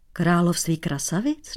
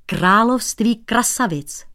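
First: Království krasavic asked with a rising tune; puzzled question. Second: Higher, slow, falling declaration; slow solemn pronouncement of království krasavic; grave announcement. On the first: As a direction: echo it back, baffled. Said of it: "Nechápal cizinec". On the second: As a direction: announce it weightily. Shoemaker announces the kingdom. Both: A narrator's reading.

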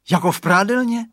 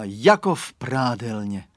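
First: Higher, louder delighted question on "prádelně"; little boy thrilled, rising "Jako v prádelně?"; cheering child. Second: Said in the usual way. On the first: A narrator's reading. Radovan echoing his father about the fog, delighted cheer. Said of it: "zajásal malý Radovan". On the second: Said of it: "zvolal ráno tatínek".

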